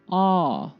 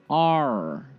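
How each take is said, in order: First: A plain vowel with no R sound. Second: A vowel with a heavy R sound. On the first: "British style"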